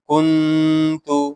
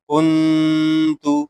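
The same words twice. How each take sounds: No difference in how they are said.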